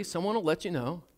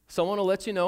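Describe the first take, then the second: First: Said in the usual way. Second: "you" pushed a bit higher and louder; stress on you. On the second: Shown as a demonstration. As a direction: lean on the word "you".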